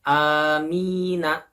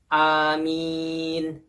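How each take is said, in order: First: The word ends with a short vowel after n. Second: The word ends on n with no vowel. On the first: There is no stop mark at the end. "Sebelum ada tanda baca wakop dibacanya seperti ini" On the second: There is a stop mark at the end. "Akan dibaca seperti ini"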